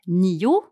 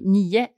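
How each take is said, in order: First: The word ends with a clear O sound. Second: The word ends with an E-like sound. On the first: It is the careful form. "when I speak correctly, I say nio" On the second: It is the quick casual form. "when I speak quickly, I say nio"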